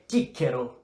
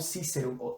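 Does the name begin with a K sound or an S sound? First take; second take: K sound; S sound. First: The name begins with a hard K sound. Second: The name begins with a soft S sound. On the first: This is how the classical pronunciation really was. The speaker calls it right. "é Cícero" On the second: This is not the classical pronunciation. The speaker calls it wrong. "e não Cícero"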